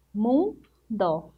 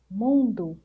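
First: "Mundo" as two parts, mun, pause, do; split into syllables. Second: Said in the usual way. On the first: Shown as a demonstration. Teacher counting two syllables for pupils, "Mundo" split apart. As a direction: break "Mundo" after "Mun" with a clear gap. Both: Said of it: "Duas sílabas".

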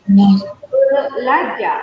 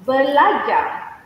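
First: "Belajar" stretched very slowly and said loudly; slow emphatic repeat. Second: "belajar" said a bit slowly; first model. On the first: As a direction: drag out "Belajar" loudly so they catch every syllable. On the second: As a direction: introduce "belajar" clearly once. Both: Shown as a demonstration. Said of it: "study is".

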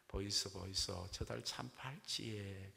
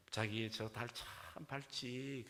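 First: Put-on Gyeongsang accent bride. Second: Slow, lingering Seoul bride; Seoul accent bride. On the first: Gyeongsang bride copies Seoul bride's moon line, slow Gyeongsang accent. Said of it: "경상도 신부가 흉내냅니다". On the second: Acted. Seoul bride admires the moon to her groom, slow Seoul accent. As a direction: muse sweetly in drawn-out Seoul speech. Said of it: "서울 신부가".

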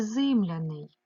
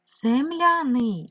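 First: "зимляний" slowly, with "и" in the first syllable; Y vowel variant. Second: "Земляний" slowly, with an open "е"; clear E vowel. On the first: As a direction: put a clear Y after "з" in "зимляний". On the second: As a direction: sound out "Земляний" loudly as zem-lia-nyi. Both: Shown as a demonstration.

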